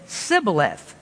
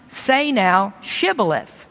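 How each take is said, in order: First: Sibboleth with a plain S for SH; Sibboleth, failing to make the SH sound; mispronounced password. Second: Shibboleth with a clear SH at the start; correct pronunciation. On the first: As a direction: say Sibboleth, hissing S instead of sh. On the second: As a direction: say Shibboleth with a hushing sh sound. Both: Acted. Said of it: "could not frame to pronounce it right".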